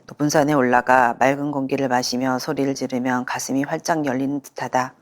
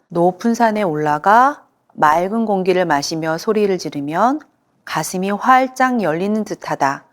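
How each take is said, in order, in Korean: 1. 이 문장은 선율적인 리듬 없이 평평하게 말해집니다. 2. 이 문장은 생동감 있는 선율적 리듬으로 말해집니다. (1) "어떤 환자분은" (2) "운율감 있게 말하는 것"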